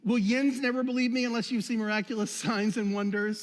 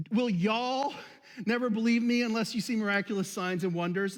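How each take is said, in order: First: The Jesus line with a mild Pittsburgh "yins"; Pittsburgh version. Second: The Jesus line recast with a mild Southern "y'all"; Southern Delaware version. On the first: Pastor shouting out to Pittsburghers, a light mock Pittsburgh accent. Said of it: "Or the Pittsburgh version". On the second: Pastor joking to the congregation, a light mock Southern accent. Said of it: "the New Southern Delaware version". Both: Pretend.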